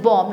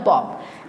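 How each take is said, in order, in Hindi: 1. यह शब्द b की ध्वनि के बिना खत्म होता है। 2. यह शब्द सुनाई देने वाली b ध्वनि के साथ खत्म होता है। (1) "यहाँ पे भी बी है silent... this is बॉम्ब" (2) "not a बॉम्ब"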